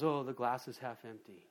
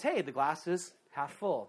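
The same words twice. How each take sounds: First: Lower, softer mock gloomy sigh; understated pessimist groan; frowning pessimist. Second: Slow, lightly cheerful mock optimist; a touch of a bright smile in it; hint of sunny optimism; smiling optimist. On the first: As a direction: sag into a mild mopey tone. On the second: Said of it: "The optimist smiles and says".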